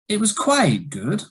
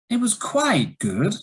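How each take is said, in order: Both takes have the same delivery.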